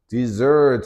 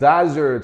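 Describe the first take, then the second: First: The stress is on the second syllable. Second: The stress is on the first syllable. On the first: It means a sweet course after a meal. "dessert 하면 여기 뒤에다가 여기에 강세가 오지" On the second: It means a dry sandy region. "desert 하면 이거는 명사"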